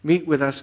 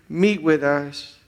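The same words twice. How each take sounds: First: Said in the usual way. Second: Meet with us drawn out slowly; slow plea. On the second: Shown as a demonstration. Pastor closing the prayer, slow Meet with us. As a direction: stretch Meet with us, each word weighted.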